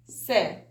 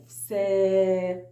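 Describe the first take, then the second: First: سا as a brief syllable; short vowel. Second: سا with the vowel held long. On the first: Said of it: "قصيرة". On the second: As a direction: stretch سا on a level note. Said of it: "لو أنا عاوزة أطولها". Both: Shown as a demonstration.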